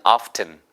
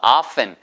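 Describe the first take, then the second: First: The t sound is pronounced. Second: The t sound is silent. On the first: It gives an older, original feel. "often 이렇게 발음하셔도 되겠습니다" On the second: This is the usual modern pronunciation. "T가 묵음이에요"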